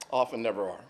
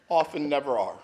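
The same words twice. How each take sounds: First: Softer repeat, trailing down; softly repeated for weight; quiet echo. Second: Said in the usual way. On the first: Shown as a demonstration. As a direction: let it fall away quietly.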